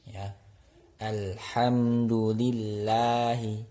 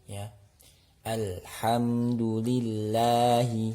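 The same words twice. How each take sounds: The two takes are said the same way.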